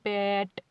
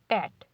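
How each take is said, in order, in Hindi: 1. आवाज़ रुकने के बजाय खिंची हुई है। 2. आवाज़ एकदम तेज़ी से रुक जाती है। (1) "ऐसे तो नहीं बोली पैट, ऐसे नहीं बोली" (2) "सीधा पैट"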